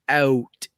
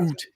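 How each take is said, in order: First: The vowel sounds like the one in shout. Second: The vowel sounds like the one in boot. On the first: This is how the speaker actually says it. "that is the way I say out" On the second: This is the stereotyped pronunciation the speaker does not use. "I don't say"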